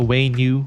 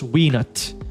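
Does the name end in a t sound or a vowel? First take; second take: vowel; t sound. First: The name ends with a vowel sound. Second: The name ends with a t sound. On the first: It is the proper name. "I think the appropriate pronunciation is the Wainu" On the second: It is a playful nickname. "we call it the Weenet because it's more fun"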